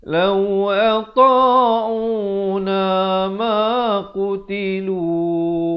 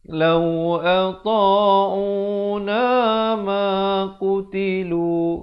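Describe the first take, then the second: No difference in how they are said.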